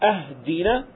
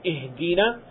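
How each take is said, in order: First: The word begins with an 'a' vowel. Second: The word begins with an 'i' vowel. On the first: It means give us gifts. The speaker calls it wrong. "he recites ahdina. This changes the meaning" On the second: It means lead us. The speaker calls it right. "instead of saying ihdina"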